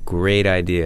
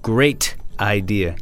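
First: The T in great sounds like a soft D. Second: The T in great is pronounced sharply.

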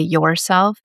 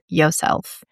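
First: The first syllable is pronounced 'your'. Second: The first syllable is pronounced 'yo'. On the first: "a more relaxed slang way to say yourself" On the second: "or yourself"

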